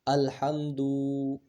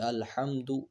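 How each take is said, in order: First: The final vowel is drawn out and long. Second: The final vowel is said quickly and short. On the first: The speaker calls it wrong. "अगर हम पेश को खींचेंगे अल्हम्दु, ये गलत हो गया" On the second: The speaker calls it right. "पेश को जो है जल्दी पढ़ते हैं, जैसे अल्हम्दु एक सेकंड भी नहीं लगता"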